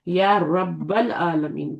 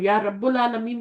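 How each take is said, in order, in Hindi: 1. 'rabb' के बाद का स्वर 'a' की आवाज़ है। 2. 'rabb' के बाद का स्वर 'u' की आवाज़ है। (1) "कहेंगे" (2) "आप नहीं कह सकते"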